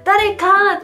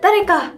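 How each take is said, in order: First: The final vowel is stretched out long. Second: The word ends short, without stretching.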